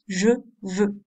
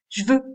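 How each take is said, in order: First: The vowel of je is fully pronounced. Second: The vowel of je is dropped. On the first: This is standard, correct speech. "et non pas" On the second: This is casual, familiar speech. "au niveau de langue familier"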